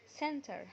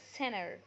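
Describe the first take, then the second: First: The t after n is pronounced. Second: The t after n is dropped, American style.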